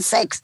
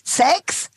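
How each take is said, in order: First: The word is said flatly, without energy. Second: The word is said with lively enthusiasm. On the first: The speaker calls it wrong. "Nicht einfach so sagen Sex" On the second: The speaker calls it right. "du musst das Wort Sex mit viel mehr Enthusiasmus sagen"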